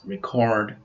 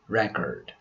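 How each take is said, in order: First: The stress follows the verb pattern. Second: The stress follows the noun pattern. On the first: The word is used as a verb. "As verbs, we pronounce record" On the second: The word is used as a noun. "As nouns, their pronunciations are record"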